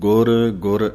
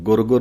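First: The two words are said clearly separated. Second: The two words are run together. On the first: The speaker calls it right. "ਨਖੇੜ ਕੇ ਬੋਲਣਾ ਹੈ" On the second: The speaker calls it wrong. "ਗੁਰ ਗੁਰ ਨਹੀਂ ਕਹਿ ਦੇਣਾ"

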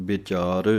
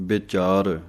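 The two takes are said the same way.

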